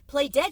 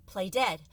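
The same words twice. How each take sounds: First: Higher, louder urgent; urgent self-command. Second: Said in the usual way. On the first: Acted. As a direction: push yourself to act now. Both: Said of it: "she told herself".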